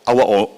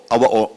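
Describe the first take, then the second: No difference in how they are said.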